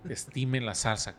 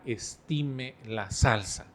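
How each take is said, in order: First: Slightly slow, mild repeat of dad's warning; father's slow warning. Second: Slow, deliberate mock fatherly warning; drawing out each word like a thrifty dad; father's slow warning. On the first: Retold or imitated. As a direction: echo the thrifty father's phrase, a bit drawn out. Repite la frase del padre. (repitiendo la frase del papá, algo lento) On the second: Padre cita su frase sobre la salsa. (imitando al papá, lento y pausado)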